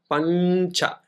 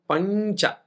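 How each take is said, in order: First: The nasal before ch is an n sound. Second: The nasal before ch is an n sound.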